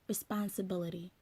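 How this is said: It is said in an American accent. "In the American accents, you might say"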